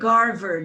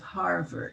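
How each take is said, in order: First: The word begins with a hard G sound. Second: The word begins with an H sound. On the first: "they always say Garvard" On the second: "instead of Harvard"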